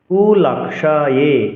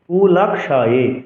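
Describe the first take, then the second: First: The middle y sound is pronounced clearly. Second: The middle y sound is pronounced clearly.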